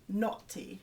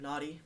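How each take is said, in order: First: The word is said in a British accent. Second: The word is said in an American accent. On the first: "sounds a lot better in a British accent" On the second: "you have naughty"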